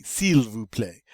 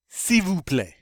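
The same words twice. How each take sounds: First: Slow S'IL VOUS PLAÎT with L heard; mistakenly sounded L. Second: Higher S'IL VOUS PLAÎT, opening as "see"; silent L. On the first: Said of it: "you would think you'd say". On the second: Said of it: "the L gets to be silent". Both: Shown as a demonstration.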